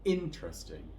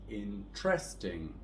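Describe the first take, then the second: First: The stress is on the first syllable. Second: The stress is on the second syllable. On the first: The speaker calls it right. "we're going to stress the first syllable here" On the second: The speaker calls it wrong. "with a stress on the second syllable"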